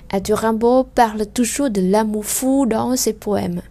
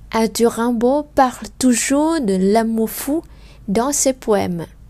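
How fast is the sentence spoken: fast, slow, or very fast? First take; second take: very fast; fast. First: It is spoken very fast with sounds run together. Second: It is spoken faster with some final sounds dropped. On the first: "Encore plus vite" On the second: "nếu như mình đọc nhanh hơn"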